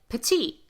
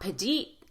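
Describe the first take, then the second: First: The middle consonant is a crisp, true T. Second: The middle consonant is a light D sound. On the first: The speaker calls it right. "We say petite" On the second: The speaker calls it wrong. "not petite, even though that would fit the rule"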